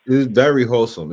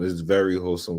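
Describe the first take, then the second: First: 'very' pushed up and louder; emphatic very. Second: Said in the usual way. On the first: Real, not acted. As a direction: lean hard on 'very' in It's very wholesome. Stresses very, then repeats.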